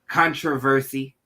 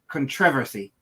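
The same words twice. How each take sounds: First: It is said with an American accent. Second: It is said with a British accent.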